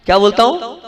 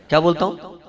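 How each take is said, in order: First: क्या बोलता हूँ asked higher, rising on हूँ; raised prompting question. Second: Said in the usual way. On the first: Shown as a demonstration. Monk presses the audience to answer, higher with a rising end. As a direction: push the crowd to answer, pitch up at हूँ.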